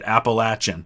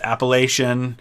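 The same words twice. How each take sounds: First: It uses the pronunciation common outside the Northeast. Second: It uses the pronunciation common in the Northeast. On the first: "outside of the northeast part of the United States, pretty much everybody pronounces it" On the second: "in the northeast, it's pronounced"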